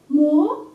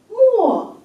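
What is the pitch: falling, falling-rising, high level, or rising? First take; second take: rising; falling. First: The pitch rises from mid to high. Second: The pitch falls sharply from high to low.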